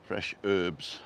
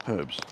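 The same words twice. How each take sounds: First: Herbs with a silent h, said 'erbs'; herbs, dropping the h; American 'erbs' with no h. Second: Herbs with the h sounded; herbs, breathing out a clear h; English herbs with a spoken h. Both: Shown as a demonstration. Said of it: "Or as we say in England".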